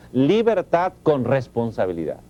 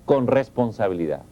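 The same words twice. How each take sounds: First: "Libertad con responsabilidad" said slowly, each word weighed, stress on "Libertad"; slow emphatic restatement. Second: Said in the usual way. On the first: Shown as a demonstration. Teacher repeating his motto to parents, slow and emphatic. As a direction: lean on "Libertad" and let "con responsabilidad" fall.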